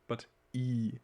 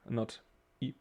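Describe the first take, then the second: First: The vowel is long. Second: The vowel is short. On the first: The speaker calls it right. "we will pronounce the I very long" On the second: The speaker calls it wrong.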